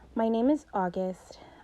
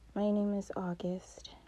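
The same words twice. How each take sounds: First: It is said louder and more clearly. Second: It is mumbled quietly and unclearly.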